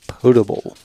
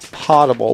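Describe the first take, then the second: First: The first syllable does not sound like pot. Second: The first syllable sounds like the word pot. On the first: It is the standard English pronunciation. "the proper English pronunciation of it is potable" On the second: It is the military usage, as in putting it in a pot. "in the U S military they may refer to it as potable"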